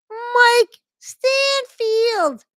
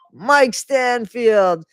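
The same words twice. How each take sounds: First: Very high, hugely stretched-out put-on voice; exaggerated squealed name. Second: Loud, slow, raised announcement of the name; hammed-up name reveal. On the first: Reader repeating the defender's name, absurd high squeal. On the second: Reader introducing the public defender, mock-grand drawl.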